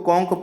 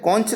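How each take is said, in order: First: The word ends with a 'k' sound. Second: The word ends with a 'ch' sound. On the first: The speaker calls it right. "कॉन्क पढ़ेंगे" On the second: The speaker calls it wrong. "कॉन्च नहीं पढ़ेंगे इसको"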